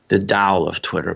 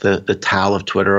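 First: Tao is said with a Chinese pronunciation. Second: Tao is said with an English pronunciation.

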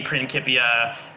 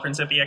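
First: The c is said as a hard k sound. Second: The c is said as a soft s sound. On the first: It is the classical Latin pronunciation. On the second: It is the name as used in English.

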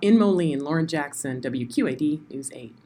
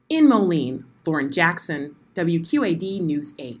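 First: It is said in an ordinary speaking voice. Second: It is said in a put-on voice with pauses.

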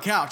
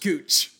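First: The vowel sounds like 'ow' in cow. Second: The vowel sounds like 'oo' in moon. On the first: The speaker calls it right. "couch is definitely couch" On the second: The speaker calls it wrong. "There's no way couch is cooch"

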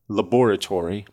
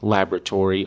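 First: It is said with a British pronunciation. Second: It is said with an American pronunciation. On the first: "British pronunciations ... laboratory, much better" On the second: "words that I have already used"

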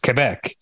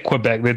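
First: The name has a French-style pronunciation. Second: The name has an English-style pronunciation. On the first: The speaker calls it right. "It's Quebec" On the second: The speaker calls it wrong. "they don't say Quebec"

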